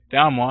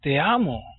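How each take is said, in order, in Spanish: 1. Se dice de forma casual, sin mucho sentimiento. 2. Se dice con cariño, con una emoción profunda. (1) "No dices, oye" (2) "Tu corazón empieza a latir, tus sentidos en totalidad aumentan"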